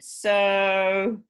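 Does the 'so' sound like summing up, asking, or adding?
adding. It sounds like adding something more.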